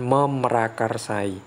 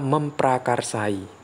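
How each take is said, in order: First: The p sound after 'mem' is dropped. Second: The p sound after 'mem' is kept. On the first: The speaker calls it wrong. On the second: The speaker calls it right. "huruf P-nya itu tidak akan hilang"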